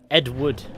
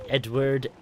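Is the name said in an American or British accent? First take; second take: British; British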